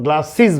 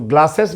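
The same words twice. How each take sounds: First: The ending is said with an 'iz' sound. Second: The ending is said with an 'es' sound. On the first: The speaker calls it right. "आई जेड जैसा, इज इज जैसा उच्चारण" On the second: The speaker calls it wrong. "ग्लासेस नहीं बोल के"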